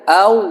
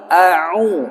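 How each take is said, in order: First: Au said with no break, no ain; wrong au. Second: A'u slowly, a then throat ain then u; correct a'u. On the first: Teacher showing the wrong reading au without ain. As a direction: au run together as one sound. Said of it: "Jangan baca dengan auzu". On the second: Teacher showing the right reading a'u with ain. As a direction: stop in the throat between a and u. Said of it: "jangan au, tapi a'u". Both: Shown as a demonstration.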